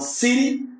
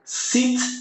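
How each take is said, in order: First: It is said in an American accent. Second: It is said in a British accent. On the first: "no inglês americano" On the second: "lá no inglês britânico"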